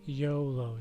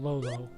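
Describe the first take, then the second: First: The name begins with a Y sound. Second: The name begins with an L sound. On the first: The speaker calls it right. "He pronounces his name YOLO" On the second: The speaker calls it wrong. "do not call him Lolo"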